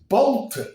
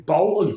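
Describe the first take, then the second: First: Higher-pitched incredulous echo; mock-startled query, pitched up; retold disbelief. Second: Said in the usual way. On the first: Lost traveller echoes the petrol station worker's answer, retold disbelief.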